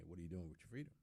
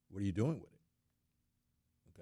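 First: Quick, softer rhetorical question. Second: Slow, louder question with "doing" punched; drawn-out emphatic repeat, weight on "doing"; stress on DOING. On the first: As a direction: toss the question out rapidly. Rhetorical question put twice. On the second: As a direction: hit "doing" hard and stretch it out. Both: Real, not acted.

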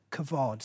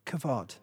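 First: Kavod said as kuh-VOD, stress on the second syllable; Hebrew word kavod. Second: Kavod repeated as kuh-VOD, leading the church in saying it; Hebrew word kavod. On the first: Pastor teaching the church a Hebrew word, clear kuh-VOD. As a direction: say kavod slowly for the church to learn. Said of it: "This is our third word". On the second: Pastor leading the church to repeat kavod, kuh-VOD. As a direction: say kavod along with the congregation. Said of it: "Say it with me". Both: Shown as a demonstration.

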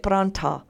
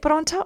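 First: "paranta" said with an open "an" in the middle; alternative pronunciation. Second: "paronta" said with a rounded "on" in the middle; pronunciation demo. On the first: Host offering listeners the other option, alternative pronunciation. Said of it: "How do you pronounce it?". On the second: Host asking listeners how they say it, pronunciation demo. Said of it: "meme around the pronunciation of paronta". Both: Shown as a demonstration.

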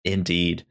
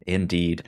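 Both takes have the same delivery.

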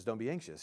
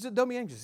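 First: Said in the usual way. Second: Much higher, tender take on "Don't be anxious."; Jesus gently. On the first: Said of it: "the worst thing you can say to an anxious person". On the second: Retold or imitated. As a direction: voice Jesus reassuring, pitched well up. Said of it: "He says".

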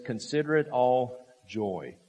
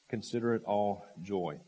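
First: Emphatic quote. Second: Said in the usual way. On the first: Shown as a demonstration.

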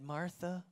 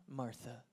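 First: Said in the usual way. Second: Much softer second call of Martha; soft, gentle repeat. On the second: Acted. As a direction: say Martha again, gently and quietly. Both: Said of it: "He says her name twice".

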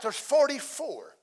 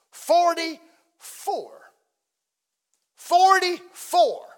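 First: Said in the usual way. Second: "forty-four" drawn out slow, climbing higher and louder; stretched emphasis. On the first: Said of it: "repeated slower and louder". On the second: Shown as a demonstration. Pastor stressing "forty-four" churches to congregation, slow and building. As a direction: stretch "forty-four" out, bigger each time. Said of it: "drawn out, building".

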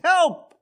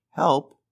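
First: High, louder panicked cry; sudden high-pitched yelp for help; urgent cry for help. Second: Said in the usual way. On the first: Shown as a demonstration. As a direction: call out as if in danger. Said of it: "and someone saying". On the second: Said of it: "difference between someone saying".

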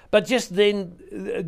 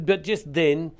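First: Slow, higher and louder; slow dramatic build. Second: Said in the usual way. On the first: Acted. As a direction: draw out the moment before the story turns. Dramatic turn in the scripture reading.

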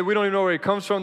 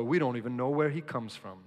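First: Loud and fast, mocking their words; loud scoffing Pharisees. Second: Said in the usual way. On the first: Preacher quoting the Pharisees, loud and scoffing. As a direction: throw their dismissal back loudly. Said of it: "that's what they say". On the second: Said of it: "consistent theme".

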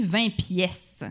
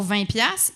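First: "pièces" with a clear è, drawn out; misheard as pièces. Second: "piastres" said colloquially as "piasse", open a; Quebec piastres. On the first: Comedian showing what the French think they hear, slow "pièces" with è. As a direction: slowly say "pièces" with an open è, not piasse. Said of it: "ils pensent qu'on dit vingt pièces". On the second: Comedian quoting the Quebec word for dollars, colloquial "piastres" as piasse. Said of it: "ils pensent qu'on dit, pour vingt piastres". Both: Shown as a demonstration.

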